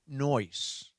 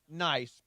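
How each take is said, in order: First: The vowel is an 'oy' sound. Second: The vowel is the usual 'eye' sound. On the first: "but noise" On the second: "not nice"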